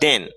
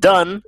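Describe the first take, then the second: First: The vowel sounds like the one in 'den'. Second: The vowel sounds like the one in 'done'. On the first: The speaker calls it right. "c'est den" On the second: The speaker calls it wrong. "ou dit done"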